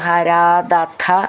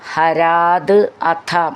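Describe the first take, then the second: First: The two parts are joined into one word. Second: The two parts are said separately.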